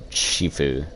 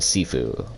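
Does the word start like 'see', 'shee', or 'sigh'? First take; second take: shee; see. First: It starts with a sh sound and ee. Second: It starts with a plain s and ee. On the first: The speaker calls it wrong. "or Shifu" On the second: The speaker calls it right. "I think it's Sifu, though, because there's no S H"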